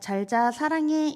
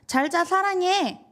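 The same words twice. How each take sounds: First: It is said in a warm, affectionate tone. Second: It is said in an angry, sulky tone.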